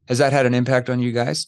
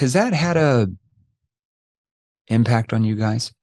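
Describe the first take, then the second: First: It is said quickly with no pause. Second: It is said with a deliberate pause inside. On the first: The speaker calls it wrong. "I didn't say, ... Too fast" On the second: The speaker calls it right. "That verbal pause there"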